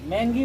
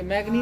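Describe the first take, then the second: First: The middle consonants sound as 'ng'. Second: The middle consonants sound as 'gn'. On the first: The speaker calls it right. "मैंगी बोलेंगे" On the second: The speaker calls it wrong. "मैग्नी नहीं है"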